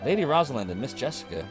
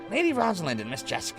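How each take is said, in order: First: It is read without the fitting character voice. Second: It is read in the fitting character voice. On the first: The speaker calls it wrong. "I'm not doing the right voice here" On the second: The speaker calls it right. "Let me try this again"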